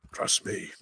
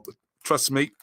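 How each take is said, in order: First: Whispered aside; whispering. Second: Said in the usual way. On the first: Shown as a demonstration. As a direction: whisper it like a secret. Joking repeat, second whispered.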